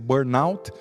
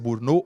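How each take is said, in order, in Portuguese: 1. A palavra é pronunciada com sotaque inglês. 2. A palavra é pronunciada com sotaque francês. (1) "a inglesa" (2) "a pronúncia francesa"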